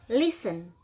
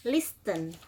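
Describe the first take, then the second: First: "listen" said the right way, as LIS-en with a silent t; correct pronunciation. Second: "listen" said slowly the wrong way, as the teacher warns against; wrong pronunciation. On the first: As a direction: model "listen" the correct way for students to copy. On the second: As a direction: demonstrate the mistaken "listen" for students to avoid. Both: Shown as a demonstration. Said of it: "Bacanya listen, bukan listen".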